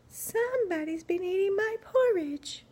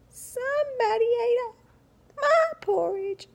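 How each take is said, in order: First: It is said in a quiet, gentle voice. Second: It is said in a tiny, squeaky voice.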